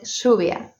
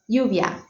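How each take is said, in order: First: It is said with an Argentinian accent. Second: It is said with a neutral accent. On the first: "instead of lluvia" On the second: "having a more neutral accent like lluvia"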